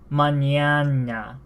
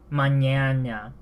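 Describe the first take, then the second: Both takes have the same delivery.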